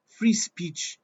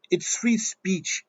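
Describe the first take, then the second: First: Said in the usual way. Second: "free speech" drawn out slowly, stress on "free"; slow, pointed repeat of "free speech"; emphatic, slowed restatement. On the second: Shown as a demonstration. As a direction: spell out "It's free speech" slowly, leaning on "free".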